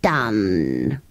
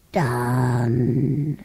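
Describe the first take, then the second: First: Very low, long-drawn word; spent creature. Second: Low, long-drawn, fading word; weaker voice. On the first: Acted. Creature granting another wish, low and drained. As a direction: sink deep as you stretch it. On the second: A narrator's reading. Creature worn out by granting wishes, weak and drawn out. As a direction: stretch it out feebly. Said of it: "but its voice was weaker".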